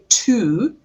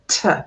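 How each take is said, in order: First: The word has a full vowel. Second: The word has a weak schwa vowel. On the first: The speaker calls it wrong. "I don't say to" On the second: The speaker calls it right. "I say t"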